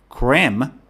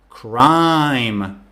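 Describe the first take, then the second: First: The vowel does not sound like 'cry'. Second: The vowel sounds like the one in 'cry'. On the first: The speaker calls it wrong. "if you mispronounce the word, this is what will happen" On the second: The speaker calls it right. "Instead of creme, I should say cry"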